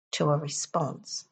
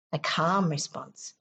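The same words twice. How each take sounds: First: Said in the usual way. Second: Calm leaned on, slow, falling; stress on calm. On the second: Shown as a demonstration. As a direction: press the word calm gently.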